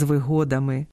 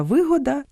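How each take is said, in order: First: ВиГО́дами, second syllable stressed; вигодами with the stress on ГО. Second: ВИ́года, first syllable stressed; вигода with the stress on ВИ. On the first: (наголос на другому складі: виго́дами) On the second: (наголос на першому складі: ви́года) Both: Shown as a demonstration. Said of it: "місце наголосу впливає на значення".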